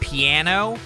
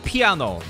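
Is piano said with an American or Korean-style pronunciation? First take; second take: American; Korean-style. First: It has a standard American pronunciation. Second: It has a Korean-influenced pronunciation. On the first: The speaker calls it wrong. "how Americans say" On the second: The speaker calls it right. "we say piano, which is better sounding in my opinion"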